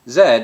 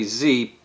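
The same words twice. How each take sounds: First: Said the British way, as 'zed'. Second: Said the American way, as 'zee'.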